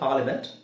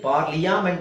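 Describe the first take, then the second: First: The 'a' is silent, with no extra syllable. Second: An extra 'ya' syllable is pronounced. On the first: The speaker calls it right. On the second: The speaker calls it wrong.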